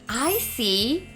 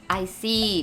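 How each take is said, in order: First: It is said expressively, sounding interested. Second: It is said flatly, sounding bored. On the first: The speaker calls it right. "ooh, like I understand. So give that expression" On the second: The speaker calls it wrong. "it sounds so boring and a little bit kind of rude"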